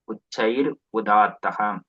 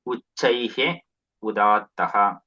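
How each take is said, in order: First: The first word ends in an r sound. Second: The first word ends in a breathy h sound. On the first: The words are joined by the sandhi rule. "this Visarga gets converted to Refa. So it, it becomes Uchair" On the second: The words are split apart without sandhi. "If you do Padacheda"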